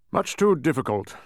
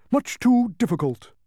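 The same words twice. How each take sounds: First: Raised, loud kingly refusal; firm royal reply. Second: Very high, loud humbug; high-pitched emphatic agreement; emphatic bug. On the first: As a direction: dismiss it as a king. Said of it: "replied the king". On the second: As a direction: echo it with pompous emphasis. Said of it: "emphasized the bug". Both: A narrator's reading.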